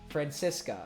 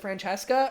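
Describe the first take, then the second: First: The middle syllable sounds like 'sis'. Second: The middle syllable sounds like 'chess'. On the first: The speaker calls it right. "it's like San Francisco, but with an A" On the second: The speaker calls it wrong. "I was mispronouncing it"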